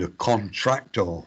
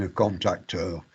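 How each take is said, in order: First: Contractor said distinctly, with TR in the middle; careful contrast. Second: Contactor said distinctly, softly, with no R after the T; careful contrast. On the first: Lecturer contrasting the confused exam terms, contractor pronounced carefully. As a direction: set out contractor carefully, sounding the extra R. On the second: Lecturer explaining a misunderstood exam term, contactor pronounced carefully. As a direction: set out contactor carefully, CON-tac-tor. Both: Shown as a demonstration. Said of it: "the difference between".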